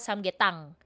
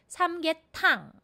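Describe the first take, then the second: First: The t in the last syllable is unaspirated. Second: The t in the last syllable is aspirated. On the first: The speaker calls it wrong. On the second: The speaker calls it right.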